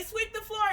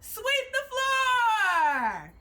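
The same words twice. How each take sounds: First: Said in the usual way. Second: Long, drawn-out shout, higher and louder; called-out command. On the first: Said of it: "when you hear me say". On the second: Shown as a demonstration. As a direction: belt the drill call across the room. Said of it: "Let's try it".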